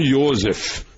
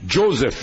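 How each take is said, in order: First: The name is said the German way. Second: The name is said the English way. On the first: The speaker calls it right. "e não" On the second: The speaker calls it wrong. "é chamado de"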